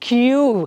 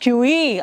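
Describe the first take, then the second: First: The word ends without an extra vowel. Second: An extra vowel sound follows the word. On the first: The speaker calls it right. "It's ಕ್ಯೂ" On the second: The speaker calls it wrong. "It is not ಕ್ಯೂ ಇ ಅಲ್ಲ"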